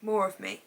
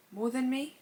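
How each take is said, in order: First: "More of me" as a settled statement, no rise; self-correction. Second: MORE THAN ME with a rising, questioning tune; puzzled questioning. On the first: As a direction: correct the misread words to "More of me". Correcting her own misreading. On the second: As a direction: query your own misreading, pitch climbing on "More than me". Puzzled rereading of a misread quote. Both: Real, not acted.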